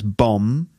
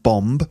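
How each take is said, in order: First: The word ends with an M sound, no B. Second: The word ends with an audible B sound. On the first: The speaker calls it right. "you don't pronounce the B. So it's bomb" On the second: The speaker calls it wrong. "Not bomb"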